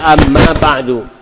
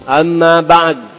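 First: The phrase ends with a short u vowel. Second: The phrase ends on the consonant d. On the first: "Dan harokatah ini dommah, ba'du" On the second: "Singkat begitu"

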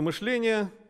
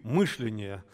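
First: The stress is on the second syllable. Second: The stress is on the first syllable.

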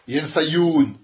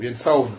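First: A y sound comes before the ending. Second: The ending follows directly, with no y sound. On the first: The speaker calls it wrong. "Oslohu. Non, ça se dit pas" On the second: The speaker calls it right. "on a dit c'est le waouh"

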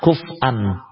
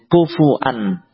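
First: No vowel follows the f, then a glottal stop. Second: A u vowel follows the f, then a glottal stop. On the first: "mensukun huruf fa. Kemudian wawnya ya, diganti dengan huruf hamzah" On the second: "mendhammah huruf fa, kemudian dengan hamzah, tidak dengan waw"

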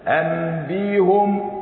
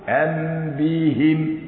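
First: The vowel after the h is u. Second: The vowel after the h is i. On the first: It keeps the original form. "اللي ضم ضم للأصل" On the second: It follows the preceding vowel. "اللي كسر كسر للإتباع"

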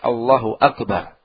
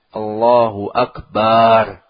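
First: The final syllable is kept short. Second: The final syllable is drawn out long. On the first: It states that God is great. The speaker calls it right. "yang sahih pendek" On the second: The word means a drum. The speaker calls it wrong. "memanjangkan bacaan barnya ... Panjang"

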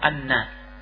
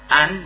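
First: The n is doubled and followed by a vowel. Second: It ends on a single n with no vowel. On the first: This is the full form used when not pausing. "fahiya musyaddada" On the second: This is the pausal form used when stopping. "sukkinat nunnya disukun"

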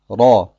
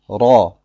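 First: The r is made with one single tongue tap. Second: The r is made with one single tongue tap.

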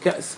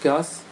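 First: A glottal stop is heard after the first consonant. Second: A long vowel replaces the glottal stop.

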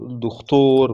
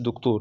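First: The middle consonant is a raspy kh sound. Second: The middle consonant is a plain k sound. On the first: The speaker calls it right. "بالخاء" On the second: The speaker calls it wrong. "ما تقولش دكتور"

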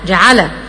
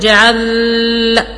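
First: The L carries an added short vowel. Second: The voice stops and holds on the L. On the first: "اجيب له فتحة فما ينفعش" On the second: "اسكت على اللام"

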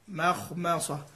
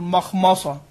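First: The m sounds are light and thin. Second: The m sounds are heavy and thick. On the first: The speaker calls it right. "لكن في الميم في الميمين" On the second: The speaker calls it wrong. "يفخم كله ... وهذا غير صحيح"

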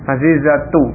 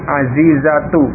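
Both takes have the same delivery.

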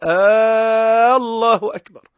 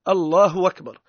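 First: The opening vowel of the first word is lengthened. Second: The glottal stop before the second word is dropped. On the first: "يصير كأنه هو قاعد يسأل يستفهم هل الله أكبر أم لا" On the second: "الهمزة ذيك ينحاها وكأنها همزة وصل تولي"

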